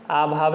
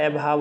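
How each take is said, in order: First: आभाव with a long aa at the start; wrong pronunciation. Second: अभाव with a short first vowel; correct pronunciation. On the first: Teacher rejects a misspelling, sounding its long first vowel. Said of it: "अभाव नहीं होता". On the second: Teacher gives the right spelling, short first vowel. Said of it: "अभाव होता है". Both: Shown as a demonstration.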